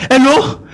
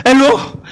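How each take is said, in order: Both takes have the same delivery.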